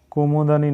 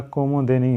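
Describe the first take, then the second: First: "कुमुदनी" with an unstressed a before nee; wrong form demo. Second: "कुमुदिनी" with a clear di before nee; correct form demo. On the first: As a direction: say "कुमुदनी" quickly as kumud-anee. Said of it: "नहीं होता है". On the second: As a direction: sound the i in the di of "कुमुदिनी". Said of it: "होता है". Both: Shown as a demonstration.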